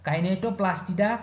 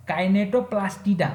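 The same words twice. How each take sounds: First: Said in the usual way. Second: Kinetoplastida slowly, each part distinct; careful pronunciation. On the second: Shown as a demonstration. Teacher naming the next order for students, careful pronunciation. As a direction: say Kinetoplastida unhurried and clearly separated. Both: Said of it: "pronunciation पे ध्यान दीजिएगा".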